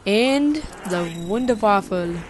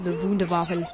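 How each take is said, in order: First: It is said in a put-on character voice. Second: It is said in the speaker's normal voice.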